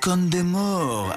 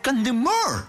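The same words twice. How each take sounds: First: The name is pronounced in a French style. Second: The name is pronounced in a Spanish style. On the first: This is how an older relative says it. "así rollito francés" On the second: This is how it is said on television. "en la tele dicen"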